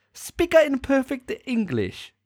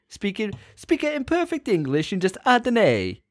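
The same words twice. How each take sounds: First: Very high, slow Italian accent slipping towards Chinese; mock Italian accent. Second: High-pitched mock Italian with extra "a" sounds; Italian accent. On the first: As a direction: overdo the Italian until it wobbles off course. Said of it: "That's getting a bit Chinesey there". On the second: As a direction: demonstrate a hammed-up Italian accent. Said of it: "for Italian, you just gotta say it". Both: Shown as a demonstration.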